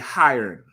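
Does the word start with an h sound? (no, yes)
yes. The word starts with an added h sound. "Jamaicans will say hired"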